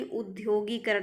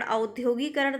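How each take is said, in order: First: उद्योगीकरण opening on short "u"; correct pronunciation. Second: औद्योगीकरण opening on "au"; wrong pronunciation. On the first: Teacher correcting students, उद्योगीकरण with initial "ud". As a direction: begin उद्योगीकरण with "ud", no glide. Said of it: "शुद्ध है". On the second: Teacher showing students the error, औद्योगीकरण with initial "au". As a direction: begin औद्योगीकरण with an "au" glide. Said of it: "औद्योगीकरण नहीं". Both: Shown as a demonstration.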